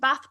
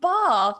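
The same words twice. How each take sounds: First: It is said in the speaker's own accent. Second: It is said in a deliberately changed accent.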